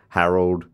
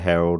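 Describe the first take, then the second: First: The first vowel is shifted toward an 'a' sound. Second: The first vowel keeps its usual 'e' sound. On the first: This is how the name is said in Melbourne speech. "we say stuff like Harold" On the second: This is the usual pronunciation of the name. "instead of Harold"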